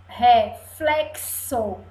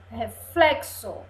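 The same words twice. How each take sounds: First: Slow RE... FLEK-SO; drawn-out demonstration. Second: Said in the usual way. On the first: Shown as a demonstration. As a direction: stretch "Reflexo" apart, sounding the x as ks. ("Reflexo" devagar, silabado, x com som de cs) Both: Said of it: "o som do X tá com o som do C S".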